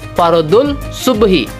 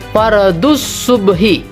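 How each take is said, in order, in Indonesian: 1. Kata pertama berakhir dengan bunyi l. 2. Kata pertama berakhir dengan bunyi s.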